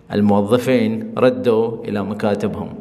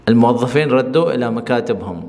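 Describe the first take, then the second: First: Slow model sentence. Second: Said in the usual way. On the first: Shown as a demonstration. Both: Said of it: "لہجے کی وجہ سے میں آپ کو بتا رہا ہوں".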